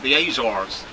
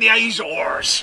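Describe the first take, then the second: First: It is said in an American accent. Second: It is said in a Cornish, pirate-like accent. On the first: "the Americans call it the Azores" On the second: "the Cornish will say"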